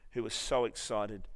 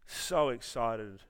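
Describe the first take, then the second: First: Said in the usual way. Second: "so excited" drawn out slow, lean on "so"; preacher slowing "so excited" for emphasis; slow emphatic repeat. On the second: Shown as a demonstration. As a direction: stretch "so excited" slowly, pressing on "so".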